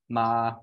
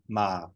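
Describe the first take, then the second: First: The pitch stays level in the middle. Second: The pitch starts below middle and goes lower. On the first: "they have a mid-tone, um, so words like ma, where the uh, pitch is staying about three" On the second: "a low tone that starts just below the mid-tone and goes lower"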